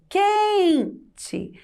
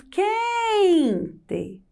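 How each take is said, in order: First: "Quente" said as "QUEEEN-tchi", first syllable long and high; final E as I. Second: "quente" with QUEN stretched long and high, TE weak; stressed first syllable. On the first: Teacher showing pupils the spoken sound, "Quente" drawn out ending in an I sound. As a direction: stretch the QUEN of "Quente" high, then a weak "tchi" ending. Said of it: "dá a impressão que eu falo quente com a letra I".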